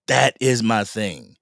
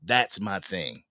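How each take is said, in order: First: That is my thing, slow, with the word is spelled out in full and pressed; slow down and hit That is; firm restatement. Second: Said in the usual way. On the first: Shown as a demonstration. To trolls in chat, slow firm That is my thing.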